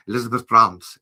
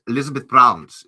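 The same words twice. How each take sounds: First: "Bruns" said as "Brrums", German-style; German pronunciation. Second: "Bruns" said as "Brrums", German-style; louder German "Elizabeth Bruns"; German pronunciation. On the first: Saying the fan's name in a German accent. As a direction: say "Elizabeth Bruns" the German way, louder. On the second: Saying the fan's name in a German accent again. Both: Shown as a demonstration. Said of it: "it's a German".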